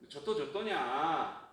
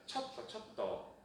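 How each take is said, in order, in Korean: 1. 부드럽고 기식이 없는 자음으로 시작합니다. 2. 강한 기식이 있는 자음으로 시작합니다. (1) "저또냐? 그것이 아니라" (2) "그것이 아니라 첫또"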